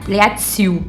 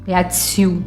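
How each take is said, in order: First: The final L is softened into a vowel sound. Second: The same.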